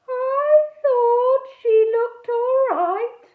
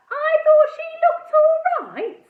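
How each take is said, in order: First: High, loud, slow dreamy voice; dopey ghost. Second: Very high, loud mocking disbelief; incredulous echo. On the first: Edmund the ghost mooning over the girl, dreamy. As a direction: drift through it like a mooning boy ghost. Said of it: "in an irritating way". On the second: Girl mocking Edmund's words in disbelief. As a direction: echo it back, scandalised. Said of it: "I couldn't believe what I was hearing". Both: A narrator's reading.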